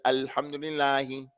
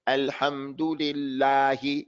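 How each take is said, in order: First: "Alhamdulillahi" run together, vowels barely formed; unschooled reading. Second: "Alhamdulillahi" slow, each vowel fully formed; correct careful reading. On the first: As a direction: slur "Alhamdulillahi" without opening the mouth. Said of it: "He doesn't open up his mouth for the Fatah". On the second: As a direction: give every vowel of "Alhamdulillahi" its time. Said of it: "He doesn't say". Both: Shown as a demonstration.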